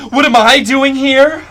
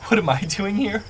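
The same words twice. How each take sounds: First: High, very loud shriek; distraught scream. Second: High, distressed question at normal volume; distraught. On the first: Sobbing woman bursting out at her pursuer, distraught scream. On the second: Sobbing woman answering from the bush, distraught. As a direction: ask it pitched up, bewildered and upset. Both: Acted. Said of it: "she goes".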